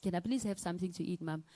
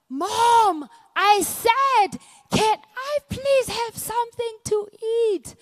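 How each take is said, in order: First: Said in the usual way. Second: Put-on high, loud child's shout; son yelling. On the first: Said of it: "And I say". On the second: Eleven-year-old son yells at his half-deaf mom. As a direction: yell it like a kid out of patience.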